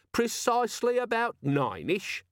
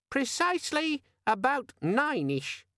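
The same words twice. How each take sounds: First: Slow, high mimicry of a squeaky gadget; exasperated echo. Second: Very high, slow, drawn-out squeak; squeaky friendly demon. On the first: Vimes repeating the demon's answer, exasperated mimicry. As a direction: parrot it back, drawn out. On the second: A narrator's reading. Pocket demon insisting on the time, squeaky and slow. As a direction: stretch it out in a perky gadget voice. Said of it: "had the squeaky, friendly quality".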